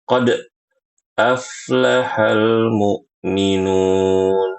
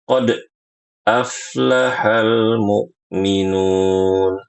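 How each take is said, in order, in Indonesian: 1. Pantulan pada bunyi d terputus secara tiba-tiba. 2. Pantulan pada bunyi d terputus secara tiba-tiba.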